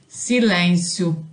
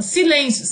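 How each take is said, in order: First: "silêncio" said low and slow, no intonation, like a bare word; flat word. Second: "silêncio" as a command, falling tune; commanding silence. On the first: Teacher shows "silêncio" without melody, flat and low. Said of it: "não faz o menor sentido". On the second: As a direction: order "silêncio" to the class. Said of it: "uma frase de situação adequada". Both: Shown as a demonstration.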